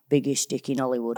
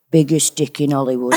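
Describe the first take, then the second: First: Put-on northern accent. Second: Laughing northern grandma line; northern grandma accent. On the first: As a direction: drop into a Chesterfield voice. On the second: Retold or imitated. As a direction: tease it like a cheeky Chesterfield nan. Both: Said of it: "if I ever have to go into my northern".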